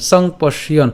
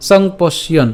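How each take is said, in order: Both takes have the same delivery.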